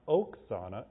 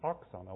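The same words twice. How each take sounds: First: All the vowels in the name are said fully. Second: One vowel in the name is weakened. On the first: The speaker calls it wrong. "her name is not Oksana" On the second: The speaker calls it right. "it's Oksana"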